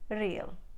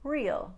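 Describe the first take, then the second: First: It has a light trill on the R. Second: It has a plain American R without a trill. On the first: "A little bit of a trill in an Indian accent" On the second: "In Standard American, this word would be real"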